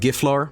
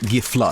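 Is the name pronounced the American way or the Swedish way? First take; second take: American; Swedish. First: The name is said with American pronunciation. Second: The name is said with Swedish pronunciation. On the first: "I do the American pronunciations" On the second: "but it's it really Giflar"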